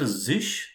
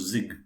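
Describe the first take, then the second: First: The word ends with a soft sh sound. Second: The word ends with a hard g sound. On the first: "It is either zish, Z I S C H" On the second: "or it could be Z I G also"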